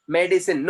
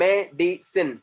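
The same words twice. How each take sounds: First: Said in the usual way. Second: "medicine" broken into three separate beats; syllable by syllable. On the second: Shown as a demonstration. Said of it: "no, medicine contains three". ("medicine" को तीन अलग अक्षरों में तोड़कर)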